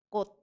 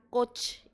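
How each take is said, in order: First: The word ends with a plain 't' sound. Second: The word ends with a 'ch' sound. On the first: The speaker calls it right. "Jadi bacanya adalah coach" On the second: The speaker calls it wrong. "bukan coach. Itu salah ya"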